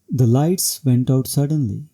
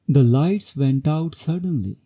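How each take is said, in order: First: The pitch falls steadily across the whole sentence. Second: The pitch rises and then falls across the sentence. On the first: It is a neutral report of what happened. "falling tone overall, which will show a neutral report" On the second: The speaker is surprised or shocked. "a rising falling tone, which will reflect surprise or shock"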